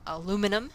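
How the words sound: The word is said with four syllables. This is how it is said in the United States. "we would omit the second I and say"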